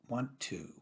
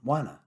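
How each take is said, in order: First: Both words are said fully and separately. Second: The two words blend into one reduced form.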